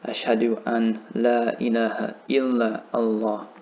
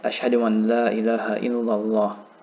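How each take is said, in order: First: The last words are said separately, not run together. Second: The last words are run smoothly together.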